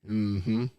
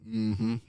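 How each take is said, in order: Both takes have the same delivery.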